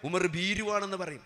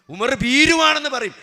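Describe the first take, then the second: First: Said in the usual way. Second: ഭീരുവാണെന്ന് hit higher and louder, falling at the end; preacher thunders that people would call him a coward; emphatic repeat. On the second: Acted. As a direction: hammer the repeat home to the crowd.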